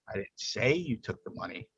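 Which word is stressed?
say. The stress is on "say".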